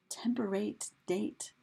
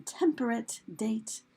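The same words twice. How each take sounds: First: TEMPERATE ends in a full -ATE, rhyming with DATE; long A at the end of temperate, matching date; rhyming old pronunciation. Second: TEMPERATE ends in a weak -ət, DATE keeps its long A; everyday pronunciation. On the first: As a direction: say temperate as TEM-per-ATE, then date. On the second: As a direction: say temperate as TEM-per-ət, then date. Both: Shown as a demonstration. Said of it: "how those were pronounced".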